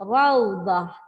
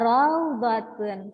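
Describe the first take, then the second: First: The word ends with an h sound, raudah. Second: The word ends with a t sound, raudatun. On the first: The reader stops at the end of the word. "ketika saya berhentikan di akhir kalimahnya" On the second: The word is read joined to what follows. "Kalau saya baca wasal atau saya baca bersambung"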